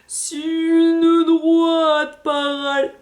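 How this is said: The voice is dragged out like slow-motion playback. "on reprend au ralenti"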